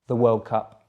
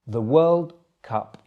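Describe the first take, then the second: First: It is said at normal speed. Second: It is said a little more slowly. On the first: "then at normal speed again" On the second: "the second time a little bit slower"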